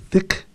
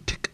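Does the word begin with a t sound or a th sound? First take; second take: th sound; t sound. First: The word begins with a th sound. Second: The word begins with a t sound. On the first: "words that begin with th" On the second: "have a hard d or T sound"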